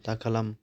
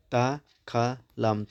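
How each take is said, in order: First: Said in the usual way. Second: दाखालाम stretched very slowly, syllable by syllable; drawn out slowly. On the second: Shown as a demonstration. Teacher splitting a word into syllables for students, slowly. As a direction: sound out दाखालाम one part at a time. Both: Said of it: "दाखालामसै होदेरोबा मोनब्रै जाबायमोन".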